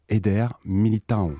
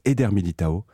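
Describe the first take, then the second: First: The ending has a nasal 'eon' sound. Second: The ending has no nasal 'eon' sound. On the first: The speaker calls it right. "ça se prononce au Brésil « eon »" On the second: The speaker calls it wrong. "qu'on appelle en France Éder Militão"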